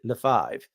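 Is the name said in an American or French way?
French. The name is said with French pronunciation. This is the family's old pronunciation. The speaker calls it wrong. "We don't pronounce it Lefebvre"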